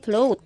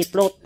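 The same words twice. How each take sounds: First: Careful corrected float. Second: The mispronounced float, plot; wrong float. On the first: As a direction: float said with a clear f and a long "ow", flowt. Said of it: "Ayan, hindi float". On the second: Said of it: "hindi float". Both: Shown as a demonstration.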